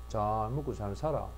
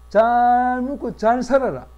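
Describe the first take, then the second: First: It is said sourly, as if frowning. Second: It is said warmly, as if smiling. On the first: The behavior contradicts the words. "인상 빡 쓰고" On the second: The words and the behavior agree. "웃으면서 말을 이렇게 하면"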